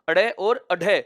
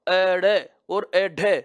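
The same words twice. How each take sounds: First: The words are said at a normal pace. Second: The words are said slowly and drawn out.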